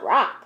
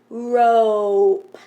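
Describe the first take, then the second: First: The vowel is a short o, as in hop. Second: The vowel is a long o, as in go. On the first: The speaker calls it wrong. "That didn't sound right" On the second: The speaker calls it right. "we'll make it a long O"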